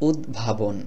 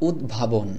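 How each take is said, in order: The two takes are said the same way.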